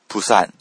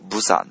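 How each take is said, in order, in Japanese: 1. 最初の子音は無声の p のように聞こえます。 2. 最初の子音は有声の b のように聞こえます。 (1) "韓国人がこれを発音すると、プサン" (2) "日本人が発音すると、ブサンっていうふうになっちゃうんですね"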